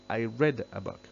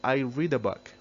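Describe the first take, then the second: First: The word read sounds like red. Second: The word read does not sound like red. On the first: It happened in the past. "in simple past we say ... It's like red color" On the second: It is in the present tense. "In simple present we say"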